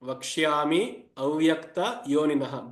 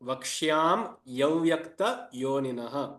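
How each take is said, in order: First: The words are kept apart, 'vakshyami avyakta'. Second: The words are joined, 'vakshyam yavyakta'. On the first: "technically, this word is split as vakshyami avyakta yoninah" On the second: "while pronouncing, you can split the words as vakshyam ya vyakta"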